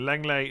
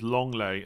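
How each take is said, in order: First: The first syllable sounds like 'leng'. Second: The first syllable sounds like 'long'. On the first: The speaker calls it wrong. "just a correction" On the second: The speaker calls it right. "is pronounced as"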